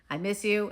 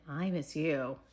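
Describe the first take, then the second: First: The voice stays level and flat throughout. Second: The voice sounds warm and full of desire. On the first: "First it's flat" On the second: "and then it's I'm attracted to you and desire"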